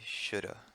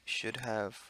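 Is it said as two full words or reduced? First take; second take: reduced; full. First: The words blur into one reduced word. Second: Both words are said fully and clearly.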